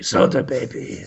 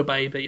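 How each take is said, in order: First: Breathy announcer whisper of the title. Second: Said in the usual way. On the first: Acted. Whispering the show title like a trailer voice.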